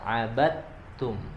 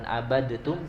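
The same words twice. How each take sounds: First: The d merges directly into the t. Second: The d is pronounced separately before the t. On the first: The speaker calls it right. "langsung ke huruf ta" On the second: The speaker calls it wrong. "bukan abadtum"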